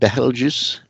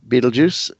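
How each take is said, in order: First: The name is said in a more Arabic-like way. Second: The name sounds like the word Beetlejuice. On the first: The speaker calls it right. "it should be pronounced more like Betelgeuse" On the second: The speaker calls it wrong. "Cringes at Beetlejuice"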